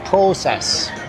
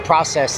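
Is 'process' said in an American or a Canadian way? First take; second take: Canadian; American. First: It is said with an imitated Canadian vowel. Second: It is said with a plain American vowel. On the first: "they say process" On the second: "they don't say process"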